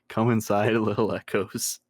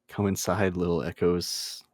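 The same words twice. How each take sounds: First: It is said while laughing. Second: It is said calmly with a straight face.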